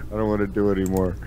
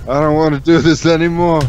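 First: Said in the usual way. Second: "do this" pushed higher and louder in mock despair; louder, exasperated take of "I don't wanna do this anymore". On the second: Real, not acted. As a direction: groan it out, fed up. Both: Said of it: "I can't".

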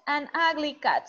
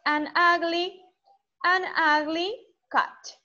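First: Said in the usual way. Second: "an ugly cat" spoken slowly, each word kept apart; slow it right down so kids can copy; slow model phrase. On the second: Shown as a demonstration. Teacher modelling slowly for students to repeat.

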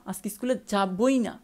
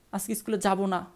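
First: Slow, with firm weight on যাবই; stress on যাবই. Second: Said in the usual way. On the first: Shown as a demonstration. Teacher shows students stubborn refusal, stress on যাবই. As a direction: lean hard on যাবই, slowly. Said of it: "এখানে একটু চাপ দেওয়া হচ্ছে". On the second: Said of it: "আর এক্ষেত্রে একটু চাপ দিতে হবে".

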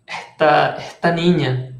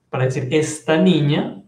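First: "esta niña" with the S of "esta" aspirated, like "eta niña"; Caribbean coastal accent. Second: Said in the usual way. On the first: Shown as a demonstration. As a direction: drop the S of "esta" into a breathy h, Costeño style. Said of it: "los costeños dicen esta". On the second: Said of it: "esa S se aspira".

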